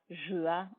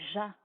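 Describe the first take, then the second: First: It is said as two separate syllables. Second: It is said as one single syllable. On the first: The speaker calls it wrong. "On ne dira pas" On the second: The speaker calls it right.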